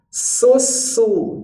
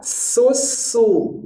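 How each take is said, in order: No difference in how they are said.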